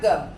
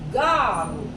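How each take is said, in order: First: It is said as the English word girl. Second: It is said in Japanese style as garu. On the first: "Dibacanya girl" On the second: "Maka ini menjadi garu"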